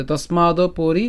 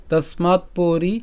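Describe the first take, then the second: First: তস্মাদ পরি linked with an o after the d; joined pronunciation. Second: Slow তস্মাৎ পরি with তস্মাৎ closed on its consonant; careful word-by-word তস্মাৎ পরি; separated words. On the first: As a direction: slowly run "tosmaado-pori" together in তস্মাদ পরি. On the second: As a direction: say তস্মাৎ, stop the final t, then পরি. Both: Shown as a demonstration. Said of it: "একসাথে".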